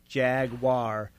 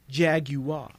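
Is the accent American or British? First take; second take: American; British. First: It is said in a North American accent. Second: It is said in a British accent.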